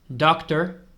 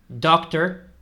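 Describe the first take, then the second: No difference in how they are said.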